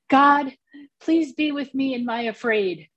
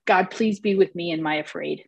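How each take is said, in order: First: Put-on high, earnest small-child voice; retelling a small boy's bath-time plea in his high voice; little boy's prayer. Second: Said in the usual way. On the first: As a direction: voice the nephew's little prayer, pitched up. Quoting her three-year-old nephew's prayer.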